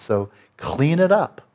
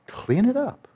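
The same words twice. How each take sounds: First: Slow, deliberate command; slow firm order. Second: Higher, rising urging; high insistent order. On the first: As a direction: lay each word down slowly. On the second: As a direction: push it up higher as a plea. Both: Shown as a demonstration.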